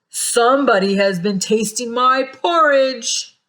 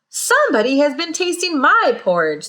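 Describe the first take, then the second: First: It is said in a great big, deep voice. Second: It is said in a middle-sized, medium voice.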